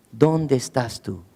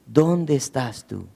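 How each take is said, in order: First: Tender searching call; a calm, unhurried plea; gentle, slow, soft question. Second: Quiet, unhurried call to the hiding man; softly searching, no anger; soft slow question. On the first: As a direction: ask it softly and slowly, without anger. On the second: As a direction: ask slowly and gently. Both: Acted. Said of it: "no llega con una actitud de enojo".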